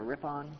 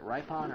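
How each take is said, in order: First: Ripon said as RIP-on; alternative pronunciation. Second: Ripon said as RYE-pon; first syllable of Ripon rhymes with "rye"; unsure pronunciation. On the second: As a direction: say Ripon with a long I, like "ripe". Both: Shown as a demonstration. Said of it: "is it Ripon or Ripon?".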